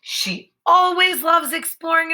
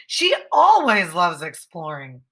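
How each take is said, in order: First: Higher, lively, "always" lifted; with emotion. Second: Said in the usual way. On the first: Shown as a demonstration. Teacher reading the sentence with lots of emotion. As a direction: say it bursting with feeling. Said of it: "I'm saying it, like, with a lot of emotion". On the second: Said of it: "with a lot of emotion".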